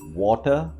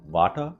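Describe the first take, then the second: First: The word begins with a rounded W sound. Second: The word begins with a V sound. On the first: The speaker calls it right. "it's supposed to be water" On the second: The speaker calls it wrong. "instead of uh, va, va, va"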